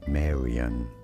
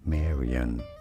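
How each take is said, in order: First: It is said with an English pronunciation. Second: The same.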